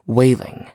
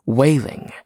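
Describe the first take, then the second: No difference in how they are said.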